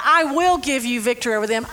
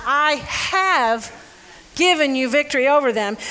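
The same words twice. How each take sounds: First: The word "will" leaned on as the wrong reading; "I will give" with weight on "will", future promise; stress on will. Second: "given" pressed firmly as already done; stress on have given. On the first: Preacher reading the wrong version to the congregation, stressing "will". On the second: Preacher correcting the reading for the congregation, stressing "given". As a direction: lean on "have given", a finished fact. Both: Shown as a demonstration.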